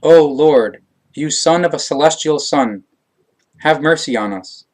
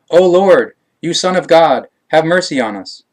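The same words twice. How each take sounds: First: Raised, pleading cry for mercy. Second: Loud, high, desperate cry for mercy; screaming louder. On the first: Blind men calling to Emmanuel by the wayside, raised plea. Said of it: "they cried out". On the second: Blind men shouting over the crowd to Emmanuel, loud desperate plea. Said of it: "they screamed even louder". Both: A narrator's reading.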